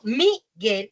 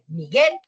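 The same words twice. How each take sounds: First: The stress is on the first syllable. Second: The stress is on the last syllable. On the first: The speaker calls it wrong. "pero yo no digo Miguel" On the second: The speaker calls it right. "sino Miguel y termino con el Miguel, el acento en su nombre está en el guel"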